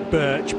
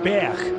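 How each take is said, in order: First: It is said with an English pronunciation. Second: It is said with a Danish pronunciation. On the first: This is how English speakers usually say it. "in English we would certainly say Birch" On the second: This is the correct native pronunciation. "is the correct Danish pronunciation"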